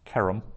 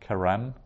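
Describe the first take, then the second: First: The stress is on the first syllable. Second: The stress is on the last syllable. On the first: The speaker calls it right. "that's accenting the ke" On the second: The speaker calls it wrong. "not keram"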